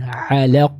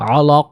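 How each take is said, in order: First: The L sound is thin and light. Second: The L sound is thick and heavy. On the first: The speaker calls it right. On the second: The speaker calls it wrong. "'alaq ini kurang tepat"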